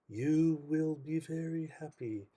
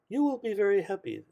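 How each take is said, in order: First: It is said in a mysterious, theatrical voice. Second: It is said in a plain, ordinary voice. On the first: "fortune tellers usually talk in a certain voice" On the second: "They don't just say"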